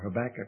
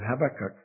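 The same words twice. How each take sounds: First: The name is said with an American pronunciation. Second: The name is said with a British pronunciation. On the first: This is how people say it locally. "I think they say in this country" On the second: This is how the speaker says it at home. "I'm an Englishman"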